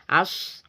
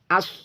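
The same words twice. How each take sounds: First: The s sound flows out with continuous breath. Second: The s sound is held back and cut off. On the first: The speaker calls it right. "harus kita alirkan" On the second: The speaker calls it wrong. "Tidak boleh kita kita mengucapkan as, nah kita tahan"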